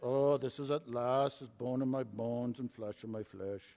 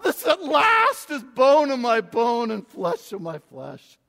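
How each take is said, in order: First: It is read in a flat, plain way. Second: It is read in a lyrical, poetic way.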